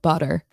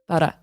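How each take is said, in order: First: It is said in an American accent. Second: It is said in an Australian accent. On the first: "you're American, you're used to doing it in the back of your throat" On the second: "See? Australian"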